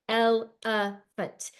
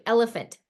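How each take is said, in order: First: "elephant" said very slowly as el-e-phant; chopped into syllables. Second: Said in the usual way. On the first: Shown as a demonstration. Teacher segmenting a word for kids, slow "elephant" in beats. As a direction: beat out each syllable of "elephant". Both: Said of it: "segmenting these syllables".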